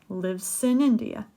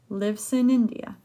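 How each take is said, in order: No difference in how they are said.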